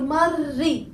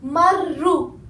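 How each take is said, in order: First: The word ends with an i vowel. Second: The word ends with an u vowel. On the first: "or marri" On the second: "I didn't say marru"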